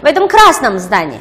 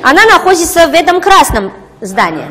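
First: Красном stressed, phrase falling after it. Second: Она stressed, pitched high with a falling end; stress on the wrong word. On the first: Shown as a demonstration. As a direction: lean on красном, then fall away. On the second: Real, not acted. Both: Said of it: "你说重音放哪儿了".

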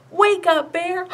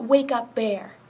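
First: Loud high call. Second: Said in the usual way. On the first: Shown as a demonstration. Librarian calling out to wake the bear puppet, loud. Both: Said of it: "you're gonna call out".

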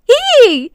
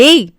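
First: High, loud squeal of delight; joyful high-pitched whoop; excited shout. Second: Short, startled yell; jolted, disbelieving exclamation; shocked shout. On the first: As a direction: cheer out loud, thrilled. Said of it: "உற்சாக குரல் கொடுக்க". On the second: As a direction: cry out in shock. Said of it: "கத்தியபடி அதிர்ந்து". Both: A narrator's reading.

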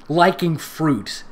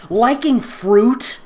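First: Said in the usual way. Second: Drawn-out, high incredulous "Liking fruit"; mocking disbelief. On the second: Shown as a demonstration. Mocking a nerdy fan reading the line. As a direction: stretch "Liking" up in scornful disbelief.

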